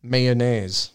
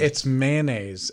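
First: "Mayonnaise" said may-oh-naise, all three syllables; drawn-out "Mayonnaise" with a full may; "Mayonnaise" as may-oh-naise, every syllable spelled out; odd mayonnaise. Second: "mayonnaise" squeezed to man-aise, slowly; "mayonnaise" as two quick syllables, man-aise; normal mayonnaise. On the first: Real, not acted. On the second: Shown as a demonstration. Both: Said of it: "You don't say it like that".

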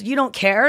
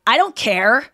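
First: Taken-aback question; mildly affronted querying; incredulous echo. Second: Mock rude rebuff; curt, emphatic brush-off; dismissive retort. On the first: Retold or imitated. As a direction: echo the rebuff in disbelief. Anya echoes the rebuff, taken aback. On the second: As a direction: shut the stranger down. Woman rebuffs Anya in retold quarrel.

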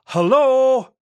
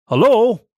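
First: Very high, loud full-lunged shout; hello yelled with everything you've got; shouting at the top of lungs. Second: Loud call over the gate; hello called up toward the vicarage. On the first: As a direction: bellow it as loud as you can. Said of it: "at the top of my lungs". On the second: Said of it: "I called". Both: A narrator's reading.

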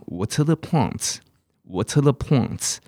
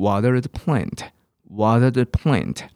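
First: "water" with a crisp t and no r, like "waw-tuh"; slow British "water the plants"; British "water", clear t, dropped r. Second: "water" with a flapped t, like "wadder"; slow American "water the plant". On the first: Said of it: "英国人的水念得很奇怪". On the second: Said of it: "美式英文念water". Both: Shown as a demonstration.

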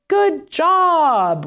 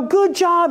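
First: High, bright praise; cheery praise. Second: Put-on bright, high praise for the child; cheery praise. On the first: Therapist praising after hand-over-hand prompt, cheery. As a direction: reward them right away with your voice. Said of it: "full prompt is that I hand over hand". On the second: Therapist praising the child after a prompt, bright and high. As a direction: cheer them on as you guide the hand. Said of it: "but I go". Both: Shown as a demonstration.

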